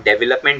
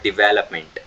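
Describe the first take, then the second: First: "डेवलपमेंट" said as de-ve-lap-ment, the wrong way; the old mistaken "डेवलपमेंट"; wrong development. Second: "डेवलपमेंट" said as di-VEL-op-ment; the right "डेवलपमेंट" with di and stress on VEL; correct development. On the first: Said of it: "हम डेवलपमेंट बोला करते थे". (गलत उच्चारण "डेवलपमेंट") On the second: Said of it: "but डेवलपमेंट". (सही उच्चारण "डेवलपमेंट", डिवेलपमेंट) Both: Shown as a demonstration.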